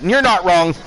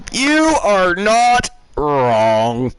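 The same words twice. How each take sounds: First: Said in the usual way. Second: "You are not wrong" slowed right down, each word weighted; slow emphatic agreement. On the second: Real, not acted. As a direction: lean on every word, drawn out. Agreeing, then repeating emphatically.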